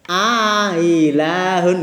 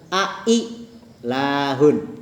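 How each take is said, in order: First: A long vowel precedes a softened second glottal stop. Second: Both glottal stops are pronounced clearly.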